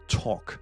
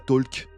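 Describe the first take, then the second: First: No L sound is heard before the K. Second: An L sound is pronounced before the K. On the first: The speaker calls it right. "c'est talk, le son O" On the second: The speaker calls it wrong. "le L se prononce pas, on dira pas talk"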